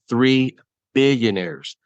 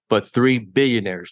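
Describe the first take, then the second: First: It is said slowly. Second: It is said at normal speed.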